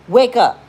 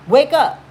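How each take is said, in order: First: Loud wake-up call. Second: Louder wake-up call. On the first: To a heartbroken friend, a loud sharp wake-up call. Shaking a friend out of self-pity. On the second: To the same friend, an even more insistent loud call. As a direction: wake up again, higher and loud. Repeats the call, pitched higher. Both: Acted.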